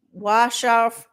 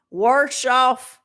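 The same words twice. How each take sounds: First: Said in the usual way. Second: Warsh off in a mock drawl; put-on regional accent. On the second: Shown as a demonstration. Trying out a warsh accent on her glasses. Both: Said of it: "That ain't my accent".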